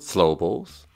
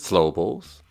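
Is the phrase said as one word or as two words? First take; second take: one word; one word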